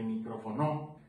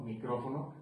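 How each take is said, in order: First: "micrófono" with the stress moved to the last syllable, mi-cro-fo-NO; shifted word stress. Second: Said in the usual way. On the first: Shown as a demonstration. Drum teacher showing accents in speech, "micrófono" stressed as mi-cro-fo-NO. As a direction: say "micrófono" wrongly accented on the final NO. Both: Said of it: "no es lo mismo decir".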